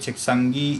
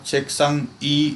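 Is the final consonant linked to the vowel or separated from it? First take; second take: linked; separated. First: The consonant flows directly into the vowel. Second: The consonant is cut off before the vowel. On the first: The speaker calls it right. "इसको पढ़ना है क्योशिरे चेक्संगी इस्सोयो" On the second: The speaker calls it wrong. "चेक्संग ई नहीं पढ़ना"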